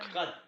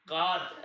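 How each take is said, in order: First: कत with a short, light a; brief कत, vowel not stretched. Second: कात with a long, heavy aa; slow, stretched कात as a wrong example; over-long vowel. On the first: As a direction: say कत lightly, one short syllable. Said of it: "हल्के में लेना है". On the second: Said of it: "ऐसा भी नहीं करना है". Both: Shown as a demonstration.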